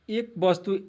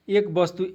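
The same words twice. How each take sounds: The two takes are said the same way.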